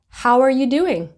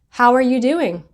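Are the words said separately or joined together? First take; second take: joined together; joined together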